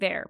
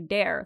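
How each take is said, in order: First: The word begins with a soft th sound. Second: The word begins with a hard d sound. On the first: The speaker has no regional accent. "like there" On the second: The speaker comes from a French-influenced region. "we say dare"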